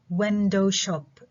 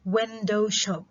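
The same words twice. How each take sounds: First: Window shop said slow, window strongly stressed; slow it down and hit window; stress on window, slowly. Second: Window stressed, shop falling. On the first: Teacher repeats window shop slowly for students. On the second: Teacher models window shop stress. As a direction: push window, drop shop. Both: Shown as a demonstration. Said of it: "على المقطع".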